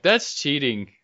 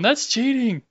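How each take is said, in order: First: Said in the usual way. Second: Much higher, teasing protest; high mock outrage. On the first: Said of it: "I was like". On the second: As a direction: squeak it out in fake shock.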